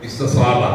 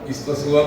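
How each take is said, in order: First: The vowel before the final b is long. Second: The vowel before the final b is short. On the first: This is the form the regular rule predicts. The speaker calls it right. "ഇസ്തസ്വാബ എന്നാണ് പറയേണ്ടത്" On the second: This is the form actually in common use. The speaker calls it wrong. "അങ്ങനെയല്ല പറയേണ്ടത്"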